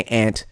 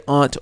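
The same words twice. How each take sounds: First: "aunt" with short a as in cat; "aunt" as ANT. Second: "aunt" rhyming with font; "aunt" as AHNT. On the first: Host shows second option, "aunt" as ant. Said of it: "or you can say aunt". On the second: Host shows first option, "aunt" as ahnt. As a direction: say "aunt" with a broad ah. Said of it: "You can say aunt or". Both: Shown as a demonstration.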